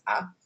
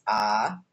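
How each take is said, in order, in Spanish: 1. La vocal es breve y rápida. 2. La vocal se mantiene larga. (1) "una vocal breve A es A" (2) "una vocal larga A es A"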